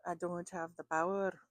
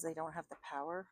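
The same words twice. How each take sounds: First: Horrible attempt at a Scottish accent; badly imitated Scottish engineer, punched louder; Scotty. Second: Said in the usual way. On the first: Reader imitating what she heard in her head, bad Scottish accent. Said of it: "that was a horrible accent".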